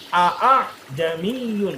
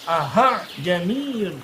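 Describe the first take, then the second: First: The second hamzah is a full glottal stop. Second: The second hamzah is an h sound. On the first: "dibaca hamzah murni" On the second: "dari hamzah berubah jadi H"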